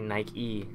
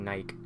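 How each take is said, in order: First: The word ends with a final vowel sound. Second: The word ends without a final vowel sound. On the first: "they say Nike" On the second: "I don't really say it, I just say Nike"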